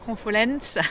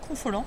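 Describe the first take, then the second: First: It is said in a southern French accent. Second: It is said in a neutral French accent.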